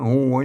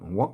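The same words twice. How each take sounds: First: The vowel is drawn out long. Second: The vowel is said short. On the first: This is the Northern Thai way of saying it. "ถ้าภาษาล้านนาเจ้าเชียงใหม่เป็นหัวยาวๆ" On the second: This is the standard Thai way of saying it. "ภาษาไทยเพิ่นอาจจะออกเสียงสั้นๆหน่อย"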